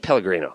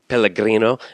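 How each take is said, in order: First: It is said plainly, with an ordinary English pronunciation. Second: It is said with an exaggerated, showy Italian pronunciation. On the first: It is the normal, unpretentious way to say it. The speaker calls it right. "just say Pellegrino" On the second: The person is showing off and being pretentious. The speaker calls it wrong. "the person that pronounces the thing"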